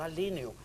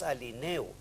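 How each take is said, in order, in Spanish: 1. El acento cae en la sílaba 'li'. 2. El acento cae en la sílaba 'ne'. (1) "y no alineo, que es producto del influjo de línea" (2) "en el primer caso es alineo"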